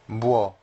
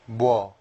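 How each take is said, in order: First: It is said as one merged syllable. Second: The same.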